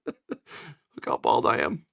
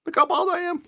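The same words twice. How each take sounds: First: Said in the usual way. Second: Mock squeal. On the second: Shown as a demonstration. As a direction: Look how bald I am, jumping up high.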